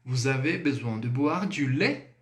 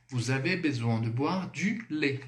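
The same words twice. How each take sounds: First: Lait lifted at the end as a question; Vous avez besoin de boire du lait sung up as a question; rising question tune. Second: Lait falls at the end as a statement; falling statement tune. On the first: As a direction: ask it, letting lait rise. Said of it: "eu vou subir a entonação". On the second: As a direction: state it flatly, drop on lait. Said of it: "Afirmei, não?". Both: Shown as a demonstration.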